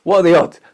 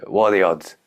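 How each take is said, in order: First: Much higher and louder rhetorical cry; loud exclamation. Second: Said in the usual way. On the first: Real, not acted. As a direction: throw the question out big and incredulous.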